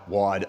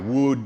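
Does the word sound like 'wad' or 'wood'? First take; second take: wad; wood. First: The vowel sounds like the one in 'odd'. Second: The vowel sounds like the one in 'good'. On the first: The speaker calls it right. "but it's wad" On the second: The speaker calls it wrong. "I always want to say wood"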